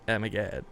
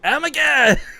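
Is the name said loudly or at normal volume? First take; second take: normal volume; loudly. First: The name is said at normal volume. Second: The name is said louder than normal. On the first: The speaker calls it wrong. "you can't read like" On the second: The speaker calls it right. "say it kind of louder than normal"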